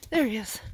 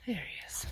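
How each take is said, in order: First: Said in the usual way. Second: Hushed whisper, almost no voice. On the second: Real, not acted. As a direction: breathe it out in a whisper. Spotting Casey ahead on trail.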